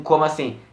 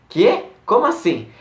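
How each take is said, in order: First: Said in the usual way. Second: High-pitched, taken-aback questioning; mock disbelief, pitched up; incredulous reply. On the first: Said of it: "ela responde um". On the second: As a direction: act out someone caught off guard by news. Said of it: "meio incrédula".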